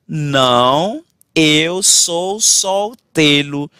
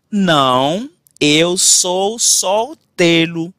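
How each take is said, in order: Both takes have the same delivery.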